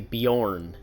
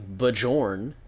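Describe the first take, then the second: First: The j is said like a y. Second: The j is said as in jam. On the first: The speaker calls it right. "that's how it's pronounced" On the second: The speaker calls it wrong. "you don't see people saying"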